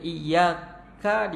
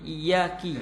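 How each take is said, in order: First: The word ends with an 'a' vowel. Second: The word ends with an 'i' vowel.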